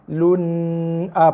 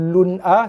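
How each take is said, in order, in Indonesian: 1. Bunyi n ditahan panjang dan sengau. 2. Bunyi n dipotong sangat cepat. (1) "panjang sangat pun salah, dah jadi dengung"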